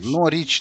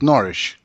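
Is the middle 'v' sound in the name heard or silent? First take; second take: heard; silent. First: The name is said with a clear v sound. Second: The name is said with no v sound. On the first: This follows the written form of the name. The speaker calls it right. "Норвич, наверное, самое правильное" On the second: This is how the locals say it. The speaker calls it wrong. "они так как-то говорят Норридж"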